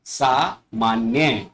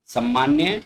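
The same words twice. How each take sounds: First: सामान्य slowly with long "saa"; corrected form. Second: सामान्य with short first vowel, rising; incorrect form. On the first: Teacher models correct सामान्य, slow long "saa". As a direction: say सामान्य as "saa... maanya", falling. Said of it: "उनको शुद्ध करके लिखा गया". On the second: Teacher reads the incorrect सामान्य as "sammaanya". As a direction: say सामान्य as "sam-maanya?". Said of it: "बाईं तरफ अशुद्ध शब्द". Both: Shown as a demonstration.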